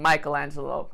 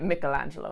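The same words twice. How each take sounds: First: The name is said with an American pronunciation. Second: The name is said with an Italian pronunciation. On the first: "instead of Michelangelo, like us Americans do" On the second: "because you're Italian, and you say it Michelangelo"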